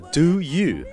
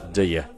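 First: Both words are said fully and separately. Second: The two words are squeezed into one quick syllable.

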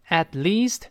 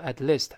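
First: The vowel in 'least' is long. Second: The vowel in 'least' is short. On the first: The speaker calls it right. "注意发长音一" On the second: The speaker calls it wrong. "不要读at least"

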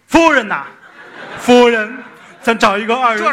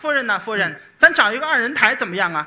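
First: The voice is coarse and deep. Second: The voice is thinner and higher.

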